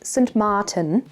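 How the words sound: The name is said with Dutch pronunciation. "or in Dutch pronunciation"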